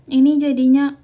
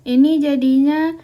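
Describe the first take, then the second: The two takes are said the same way.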